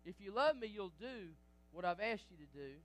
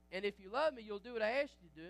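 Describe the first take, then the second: First: Said in the usual way. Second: Louder, faster repeat; pressing the point. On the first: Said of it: "restating the verse". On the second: Shown as a demonstration. Preacher repeating the verse to the church, louder and faster. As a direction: drive the line home the second time. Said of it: "restating the verse, louder and faster".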